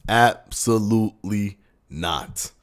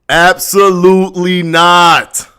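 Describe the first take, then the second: First: It is said with ordinary, moderate energy. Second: It is said with more force and fervor.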